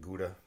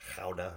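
First: It is said with an English pronunciation. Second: It is said with a Dutch pronunciation. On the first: "We pronounce it Gouda" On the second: "the Dutch people say it's pronounced Gouda or something like that"

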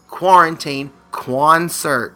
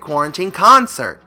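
First: The phrase is said with an added kw sound. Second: The phrase is said with ordinary pronunciation. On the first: "with a Q-U" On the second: "like a normal thing"

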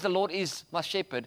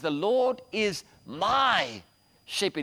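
First: The word my is not stressed. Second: The word my is stressed.

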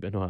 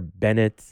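First: The surname ends with a French-style sound. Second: The surname ends with an anglicized sound. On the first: This is the pronunciation the family insists on. The speaker calls it right. "you have to pronounce it Benoit, that's the right way" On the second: This is how others commonly mispronounced the name. The speaker calls it wrong. "was there a lot of mispronouncing of your name? Yes"

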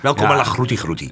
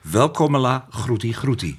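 First: The phrase is said at a fast pace. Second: The phrase is said at a moderate pace. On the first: "je hoort het heel snel te zeggen" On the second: "Tempo mag iets omhoog nog"

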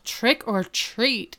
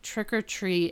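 First: It is said loudly, with lots of energy. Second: It is said flatly, without energy. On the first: The speaker complies with the demand for enthusiasm. The speaker calls it right. "say it with vigor" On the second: The speaker is reluctant to say it. The speaker calls it wrong.

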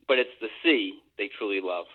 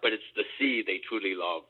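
First: It is said in his normal voice. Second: It is said in a put-on pirate voice.

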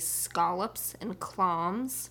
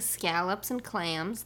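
First: The a vowels are broadened toward ah. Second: The vowels are said in a standard American way. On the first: "they say ... they say the A sound is ah" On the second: "instead of saying"

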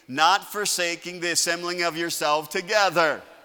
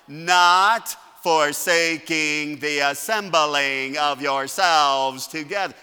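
First: It is said at normal speed. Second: It is said slowly.

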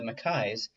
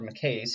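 First: The name is said in the standard non-American form. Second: The name is said in the American form. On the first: This is the usual pronunciation outside America. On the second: This is how the name is said in America.

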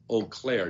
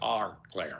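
First: The name begins with an 'oh' sound. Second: The name begins with an 'our' sound. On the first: The speaker calls it right. "notice the way that she pronounces it" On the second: The speaker calls it wrong. "not our Claire"

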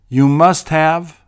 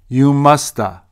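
First: The word 'have' is pronounced fully and clearly. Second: The word 'have' shrinks to a quick 'uh' sound.

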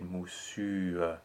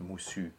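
First: A soft schwa follows the final u vowel. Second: The word ends on the u vowel. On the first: "now we add the schwa and we get moussu" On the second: "this word would be pronounced moussu without the schwa at all"

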